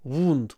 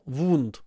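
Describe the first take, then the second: First: It is said with a Russian accent, mouth nearly closed. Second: It is said with a Russian accent, mouth nearly closed.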